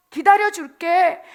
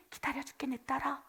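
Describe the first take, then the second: First: Slow, loud and drawn out; slow emphatic promise. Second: Hushed, much softer; 기다려줄게 breathed gently to a child; tender. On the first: God pledging to Israel in the wilderness, slow loud promise. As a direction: lean hard on every syllable of 기다려줄게. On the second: God soothing his complaining daughter, hushed tender promise. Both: Acted.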